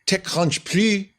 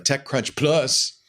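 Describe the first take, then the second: First: It is said in a French accent. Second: It is said in a plain accent.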